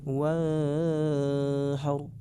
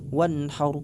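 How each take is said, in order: First: The n sound is blurred and barely heard. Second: The n sound is quick and clear. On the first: The speaker calls it wrong. "disamar-samarkan suara nunnya" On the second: The speaker calls it right. "seperti ini yang benar ... dibaca cepat dan jelas"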